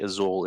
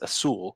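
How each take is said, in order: First: The middle consonant is a buzzing Z sound. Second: The middle consonant is a hissing S sound. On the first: "instead of the Z sound" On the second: "with that S sound"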